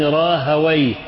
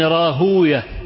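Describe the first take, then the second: First: The name ends with the sound 'wayh'. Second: The name ends with the sound 'uyah'. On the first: This is how grammarians say the name. "أما أهل اللغة فيقولون" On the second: This is how hadith scholars say the name. "المحدثون هكذا إيه ينطقونها"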